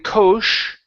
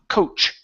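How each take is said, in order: First: The word begins with a sh sound. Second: The word begins with a ch sound. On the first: The speaker calls it wrong. "instead of saying coach, okay, with an S H" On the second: The speaker calls it right. "it's a C H sound"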